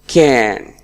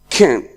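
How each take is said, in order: First: The vowel is full and the word is strong. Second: The vowel is reduced and the word is weak. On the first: "in the strong form, it is pronounced like can" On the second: "In the weak form, it is pronounced like can"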